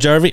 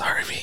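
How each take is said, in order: First: The name begins with a J sound. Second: The name begins with an H sound. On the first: The speaker calls it wrong. "you're saying it wrong" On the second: The speaker calls it right. "It's Harvey, actually"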